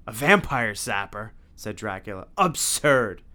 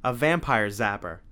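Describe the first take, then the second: First: Slow disbelieving villain voice; scornful vampire voice. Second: Said in the usual way. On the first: A narrator's reading. Dracula repeats Tim's words.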